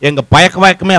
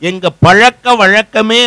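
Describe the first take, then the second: First: The middle consonant is a plain y sound. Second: The middle consonant is the retroflex zh sound.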